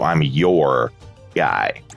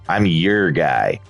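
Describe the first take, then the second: First: The phrase is said carefully, with full sounds. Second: The phrase is said casually, with reduced sounds. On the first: "as opposed to" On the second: "I said"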